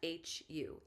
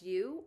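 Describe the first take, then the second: First: The word starts with a clear H sound. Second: The word starts with no H sound. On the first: "or you can chant H U" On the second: "either just U"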